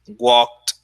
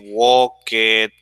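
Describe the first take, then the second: First: The ending is said as a single t sound. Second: The ending is said as an extra syllable. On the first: The speaker calls it right. "the right pronunciation" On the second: The speaker calls it wrong. "you don't say"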